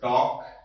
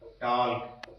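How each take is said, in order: First: No L sound is pronounced before the final k. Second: An L sound is pronounced before the final k. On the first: The speaker calls it right. "यहां पर जो एल है वो silent है" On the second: The speaker calls it wrong. "बच्चे क्या इसको पढ़ते हैं, टाल्क पढ़ते हैं"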